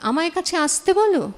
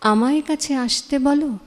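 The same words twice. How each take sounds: First: The consonant in আসতে is a plain s sound. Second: The consonant in আসতে is an sh sound. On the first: The speaker calls it wrong. "অনেকেই বলে ... হওয়া উচিত না" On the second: The speaker calls it right. "এস হওয়া উচিত না"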